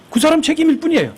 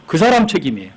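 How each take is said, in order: First: "그 사람 책임일 뿐이에요" pitched sharply up for emphasis; emphatic repeat. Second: Said in the usual way. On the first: Real, not acted. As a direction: drive home "그 사람 책임일 뿐이에요" on a high pitch, falling at the end. ("그 사람 책임일 뿐이에요"를 높은 음으로 힘주어 강조)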